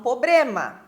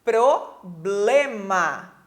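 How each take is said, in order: First: Problema said as poblema, r dropped; wrong pronunciation pobrema. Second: Problema said very slowly with a clear pr cluster; slow and careful problema, every sound clear; correct problema. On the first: Teacher imitating a common mispronunciation. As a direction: drop the r in problema. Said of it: "Muitas pessoas falam". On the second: Teacher modelling the correct word slowly. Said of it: "e o correto é". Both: Shown as a demonstration.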